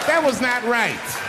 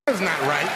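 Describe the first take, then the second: First: Drawn-out, higher indignant repeat; slow emphatic repeat. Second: Said in the usual way. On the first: Acted. To the crowd, slow indignant repeat. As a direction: lean on it slowly.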